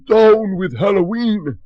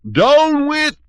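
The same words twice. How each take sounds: First: High, loud pompous shout. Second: Very high, very loud squeal; squealing shout. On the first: Butterbean shouting before the spell hits, high loud shout. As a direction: bellow the slogan once more. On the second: Butterbean mid-transformation, very high squealing shout. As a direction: squeal it as the voice turns piggy. Voice turning into a pig. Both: Acted.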